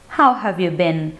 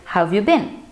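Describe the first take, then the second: First: Each word is pronounced fully and carefully. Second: The words are run together with a contraction. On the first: It suits a formal situation. "avoid any contractions and take your time and pronounce as good as possible" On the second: It suits an informal situation. "you can use any contractions"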